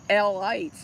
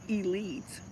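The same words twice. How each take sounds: First: The ending sounds like 'lights', as in Israelites. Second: The ending sounds like 'leets', the usual way. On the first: The speaker calls it right. "that's how you would pronounce it" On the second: The speaker calls it wrong.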